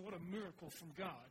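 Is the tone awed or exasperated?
exasperated. It is said with weary exasperation.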